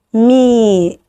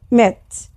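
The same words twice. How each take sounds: First: Me with a long, drawn-out ee; open syllable, long vowel. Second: Met with a short e stopped by t; closed syllable, short vowel. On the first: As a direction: stretch the open ee at the end of me. (مد حرف العلة في آخر me) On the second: (حرف علة قصير مقفول بـ t في met) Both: Shown as a demonstration. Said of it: "تعالوا نفرق تاني بين ال open وال close".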